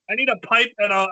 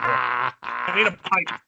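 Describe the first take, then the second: First: Said in the usual way. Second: Hammed-up ship captain voice, low and slow; mock old captain. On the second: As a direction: lower and slow, a touch of a gruff sea captain. Playing the old sea captain.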